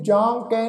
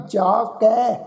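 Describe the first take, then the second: First: "ਜਾਂ ਕਹਿ" with a nasal aan in ਜਾਂ; wrongly nasalised. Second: "ਜਾ ਕੈ" with a pure oral aa in ਜਾ; without nasalisation. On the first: Teacher showing the reading to avoid, "ਜਾਂ ਕਹਿ" nasalised. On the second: Teacher showing the congregation how to read "ਜਾ ਕੈ", un-nasalised. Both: Shown as a demonstration. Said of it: "ਇਹਨੂੰ ਜਾਂ ਕਹਿ ਨਹੀਂ ਪੜ੍ਹਨਾ".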